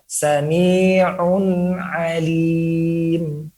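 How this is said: The words flow together with a light nasal hum. The speaker calls it right. "cara pengucapannya tetap memiliki gunnah, namun sekedarnya atau sangat-sangat ringan"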